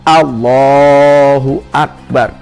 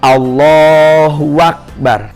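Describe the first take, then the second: First: No 'wa' sound comes before akbar. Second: A 'wa' sound links Allahu to akbar. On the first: The speaker calls it right. "jangan sampai ada wa" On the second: The speaker calls it wrong. "tidak boleh ada wawu antara lafaz Allah dan lafaz akbar"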